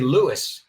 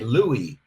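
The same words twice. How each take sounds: First: The name is said without the French pronunciation. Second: The name is said with the French pronunciation. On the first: The speaker calls it wrong. "We don't say Louis in English" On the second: The speaker calls it right. "we say Louis, like with the French pronunciation"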